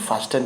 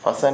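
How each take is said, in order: First: The t sound is pronounced in the middle. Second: The t sound is left out entirely. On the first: The speaker calls it wrong. "लोग पढ़ते हैं फास्ट" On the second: The speaker calls it right. "टी silent रहेगा"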